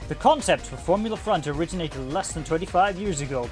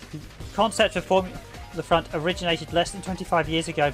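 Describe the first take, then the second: First: It is read in a put-on announcer voice. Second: It is read in an ordinary reading voice.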